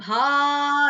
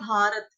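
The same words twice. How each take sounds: First: It is pronounced in the Sanskrit way. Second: It is pronounced in the Hindi way. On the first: "संस्कृत में कैसे बोलना है?" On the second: "हम लोग हिंदी में कैसे बोलते हैं?"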